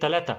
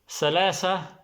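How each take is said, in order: First: The word starts with a hard t sound. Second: The word starts with a soft s-like sound. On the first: This is the Egyptian form. "Egyptian, they will not say salasa, they will say talata" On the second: This is the classical Arabic form. "This is for classic Arabic, the one I said now"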